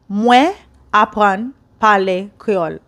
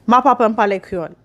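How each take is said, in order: First: The first word is said in full. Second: The first word is shortened and joined on. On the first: This is the longer form. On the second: This sounds more like a native speaker.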